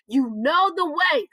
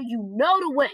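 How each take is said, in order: First: "You know the way" said slower, each word leaned on; emphatic repeat. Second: Said in the usual way. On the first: Shown as a demonstration. Preacher driving home "You know the way" with slow emphasis. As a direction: press "know" hard and slow it down.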